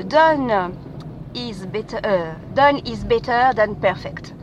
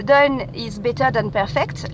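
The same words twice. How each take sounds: First: English motto said slowly in a French accent. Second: Slow, careful English motto in a French accent. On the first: Podcaster reciting a podcast's motto, slow French-accented English. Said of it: "excusez mon accent, euh, anglais". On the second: Podcaster repeating the motto for listeners, French-accented English. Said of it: "mon accent, euh, anglais". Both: Shown as a demonstration.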